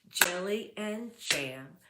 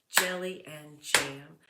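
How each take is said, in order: Both takes have the same delivery.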